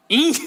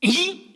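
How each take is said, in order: First: Short Chungcheong "이?" repeated more plainly. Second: Sharp high Chungcheong "이?"; Chungcheong one-syllable reply. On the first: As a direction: echo "이?" as a terse Chungcheong answer. (짧게 다시 던지는 충청도식 "이?") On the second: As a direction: fire off "이?" as a terse Chungcheong answer. (높고 짧게 올리는 충청도식 "이?") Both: Retold or imitated. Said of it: "이걸로 끝내요".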